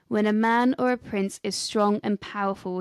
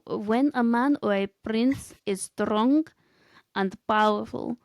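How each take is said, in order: First: It is said in his normal voice. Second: It is said in a put-on Gru-like voice.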